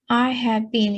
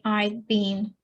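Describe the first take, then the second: First: The word had is said in full. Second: The word had is shortened to d.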